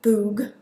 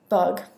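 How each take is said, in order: First: The vowel is a long oo sound. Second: The vowel is a short u sound. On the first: The speaker calls it wrong. "not boog" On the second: The speaker calls it right. "you say bug"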